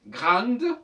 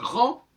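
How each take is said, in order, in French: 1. C'est dit avec un accent marseillais. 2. C'est dit avec un accent parisien. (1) "comme on dirait à Marseille" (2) "ça devient grand à Paris"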